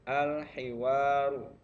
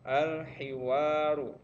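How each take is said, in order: No difference in how they are said.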